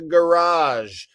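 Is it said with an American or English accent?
American. It is said with an American accent.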